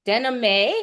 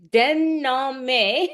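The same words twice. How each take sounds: First: Denhame said as a quick questioning try, rising at the end; tentative French pronunciation. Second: Denhame drawn out in a higher French accent, rising. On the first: Host checking the guest's French surname, tentative French pronunciation. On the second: Host having a second go at the guest's surname, careful French accent. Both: Shown as a demonstration. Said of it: "get my French accent going".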